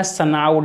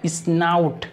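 First: Snout said as "sanaut"; snout as spelt. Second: Snout said as "isnaut"; snout as read. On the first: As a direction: put a vowel between s and n in snout. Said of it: "लिखा है". (snout को सनाउट पढ़ना) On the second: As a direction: lead into snout with a short i before sn. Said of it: "लेकिन इसे पढ़ते हैं". (snout को इस्नाउट पढ़ना) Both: Shown as a demonstration.

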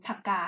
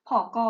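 First: Phaka split into two syllables; Thai syllable-by-syllable pronunciation. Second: Phka run together as a cluster; Khmer cluster pronunciation. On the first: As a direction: put a short vowel between ph and k in phaka. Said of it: "แต่เราก็ออกมาเป็น". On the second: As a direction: blend the ph and k of phka. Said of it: "เขาออกเสียงควบแบบว่าเป็น". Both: Shown as a demonstration.

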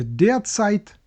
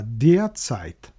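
First: "derzeit" with one heavy stress, said slowly and high; wrong stress. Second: "derzeit" with even stress on der and zeit, slow and low; correct double stress. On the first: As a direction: stress "derzeit" wrongly, drawn out on a single syllable. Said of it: "Наголос падає одно-, водночас на der і Zeit". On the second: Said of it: "водночас на der і Zeit". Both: Shown as a demonstration.

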